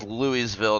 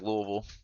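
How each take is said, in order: First: The middle is full and every syllable is clear. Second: The middle is reduced and the word is short. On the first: The speaker calls it wrong. "If anyone says Louisville, don't trust them" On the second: The speaker calls it right. "it is pronounced Louisville"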